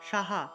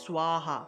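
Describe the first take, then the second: First: The first syllable is a plain sa sound. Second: The first syllable has a rounded swa sound. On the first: The speaker calls it wrong. "এটাকে সাহা উচ্চারণ হবে না" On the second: The speaker calls it right. "এটা হবে সোয়াহা"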